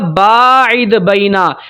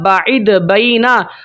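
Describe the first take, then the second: First: The first vowel is held long. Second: The first vowel is cut short. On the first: "लफ्ज़ था" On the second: "मैंने अलिफ को ख़त्म कर दिया"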